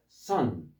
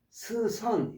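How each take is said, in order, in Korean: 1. s와 c가 합쳐져 하나의 s 소리가 됩니다. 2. s와 c는 따로 나는 소리로 발음합니다. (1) "한꺼번에 스로 발음하셔야 돼요" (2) "스선 이러면 안 되고"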